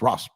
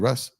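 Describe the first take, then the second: First: The vowel sounds like the one in 'boss'. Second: The vowel sounds like the one in 'bus'. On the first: The speaker calls it right. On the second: The speaker calls it wrong.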